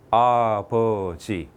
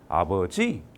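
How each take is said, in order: First: All three syllables have equal stress. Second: The stress is on the third syllable. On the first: The speaker calls it right. "똑같은 세 개의 음절로 되어 있죠" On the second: The speaker calls it wrong. "세 번째 줄게요"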